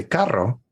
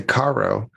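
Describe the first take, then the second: First: "carro" with the rr trilled on the tongue; a Spanish trilled rr in the middle of "carro"; rolled R. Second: "caro" with one light tapped r; a brief unrolled r in the middle of "caro"; untrilled single r. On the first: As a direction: roll the double r in "carro". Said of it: "rolled my R's". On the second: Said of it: "it means expensive". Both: Shown as a demonstration.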